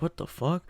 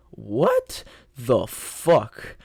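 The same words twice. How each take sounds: First: Quiet, higher-pitched inner thought; small, hushed aside to himself; in his head. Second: Very slow, drawn-out mock shock; long, dragged-out inner reaction; stunned disbelief. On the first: Retold or imitated. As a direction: say it softly, as if only thinking it. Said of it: "I was in my head". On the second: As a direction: stretch every word out in disbelief. Stunned inner reaction to teacher's announcement.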